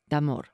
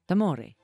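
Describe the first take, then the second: First: The word ends with an r sound. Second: The word ends with a vowel after r. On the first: The speaker calls it wrong. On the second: The speaker calls it right.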